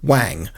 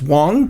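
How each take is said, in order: First: The name rhymes with bang. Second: The name rhymes with long. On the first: "I pronounced it Wang" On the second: "it could actually be pronounced Wong"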